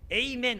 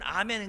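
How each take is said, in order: First: The word begins with an 'ay' sound. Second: The word begins with an open 'ah' sound. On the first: This is how Americans say it. "미국에는 에이멘이라고 그런단 말이야" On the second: This is how Koreans say it. "우리는 아멘"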